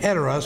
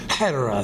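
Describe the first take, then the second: First: The word begins directly with a vowel. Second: The word begins with a breathy H sound. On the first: The speaker calls it wrong. "instead of saying" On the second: The speaker calls it right. "So you kind of put an H sound there"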